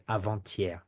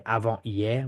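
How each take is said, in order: First: Avant-hier with the T sounded, avan-tier; French liaison with T. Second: Avant-hier with no T, avan-ier; French without liaison; no liaison, wrong. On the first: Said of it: "we say". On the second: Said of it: "We don't say". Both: Shown as a demonstration.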